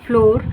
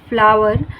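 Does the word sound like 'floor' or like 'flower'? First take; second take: floor; flower. First: It is said with one syllable, like 'floor'. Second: It is said with two syllables, like 'flower'. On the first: The speaker calls it wrong. "इसे फ्लोर नहीं बोलते" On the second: The speaker calls it right. "हम इसे फ्लावर बोल रहे हैं"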